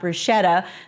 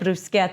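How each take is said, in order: First: The word is pronounced the common American way. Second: The word is pronounced the Italian way. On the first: The speaker calls it wrong. "not bruschetta... we Americans are mispronouncing it" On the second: The speaker calls it right. "I said bruschetta"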